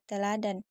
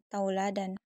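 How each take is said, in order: First: The first syllable has a single plain vowel. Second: The first syllable has a gliding diphthong.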